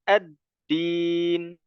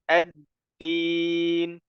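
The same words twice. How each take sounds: No difference in how they are said.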